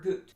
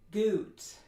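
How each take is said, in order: First: The vowel is cut short. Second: The vowel is pushed forward in the mouth. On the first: "That's not long enough" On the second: "That would be fronting"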